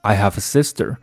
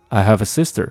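First: It is said slowly, with emphasis. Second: It is said fast, words linked together.

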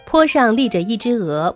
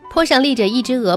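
First: It is spoken at a somewhat quicker pace. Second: It is spoken quickly. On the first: "可以适当的加快语速。比如你可以这样来念" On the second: "当然后续你还可以再加快语速。"

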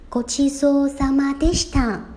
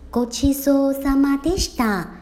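Both takes have the same delivery.

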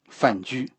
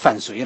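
First: The second syllable is said jū. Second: The second syllable is said suī. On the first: This is the reading now accepted as correct. The speaker calls it right. "这应该这个字是念雎" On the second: This is the reading commonly used in the past. The speaker calls it wrong. "20 年以前这个人肯定叫范睢来着"

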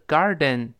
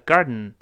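First: The word is said at a normal pace. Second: The word is said quickly and reduced.

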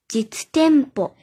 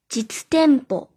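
Both takes have the same delivery.

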